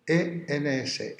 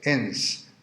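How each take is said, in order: First: E N S spelled out slowly as single letters. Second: Ens pronounced as one whole word. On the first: Teacher spelling the Latin word, slowly and one letter at a time. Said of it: "el participio presente es ens". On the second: Teacher pronouncing the Latin word ens for the class. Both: Shown as a demonstration.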